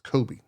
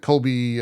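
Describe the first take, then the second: First: The name has no L sound before the B. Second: The name has an L sound before the B. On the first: The speaker calls it right. "it's Kobe" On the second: The speaker calls it wrong. "or sorry, it's Kobe, not Colby"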